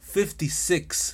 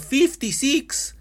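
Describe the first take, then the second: First: It is said with a native English accent. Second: It is said with a heavy Latino accent.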